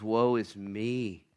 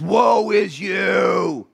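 First: Humbled prophet. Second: High, very slow drawn-out shout; fired-up prophet. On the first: Isaiah falling down before the Lord, humbled lament. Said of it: "He's humbled". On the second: Fired-up prophet denouncing the people, long high shout. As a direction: thunder it out, stretching every word. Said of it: "He's pretty fired up". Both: Acted.

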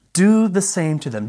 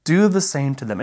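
First: "Do" pitched higher and hit hard, rest falling; stress on DO. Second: Said in the usual way. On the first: Shown as a demonstration. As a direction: lean on "Do" to make it land as shocking. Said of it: "revolutionary and radical nature of that statement". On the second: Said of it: "this would have been completely shocking".

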